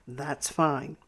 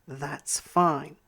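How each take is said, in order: Both takes have the same delivery.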